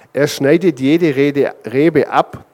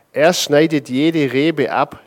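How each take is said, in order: Both takes have the same delivery.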